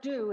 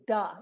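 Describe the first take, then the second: First: The word has a full oo vowel. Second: The word has a reduced uh vowel. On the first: The speaker calls it wrong. "It's not do" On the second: The speaker calls it right. "it's da"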